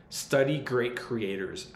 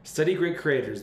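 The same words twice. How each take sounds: First: Study great creators said slowly, each word weighted; slow emphasis. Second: Study great creators said higher and louder, punched on "Study"; louder emphasis. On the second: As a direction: hit "Study" hard and high to drive it home. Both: Shown as a demonstration. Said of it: "I cannot emphasize this enough".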